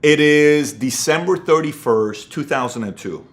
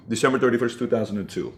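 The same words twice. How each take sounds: First: Each word of the date set down slowly; slow deliberate date. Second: Softer, fading repeat of the date; quiet echo. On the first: Giving the exact date of his breaking point, slow and deliberate. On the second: Repeating the date of his breaking point, fading to quiet. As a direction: let the date sink in almost under breath. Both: Shown as a demonstration. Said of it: "I'll give you the exact date".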